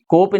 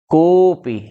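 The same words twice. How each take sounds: First: The o vowel is short and plain. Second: The o vowel is drawn out long. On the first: The speaker calls it wrong. "कोपि नहीं" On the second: The speaker calls it right. "ह्रस्व का तीन गुना बोलेंगे, खींच कर बोलेंगे"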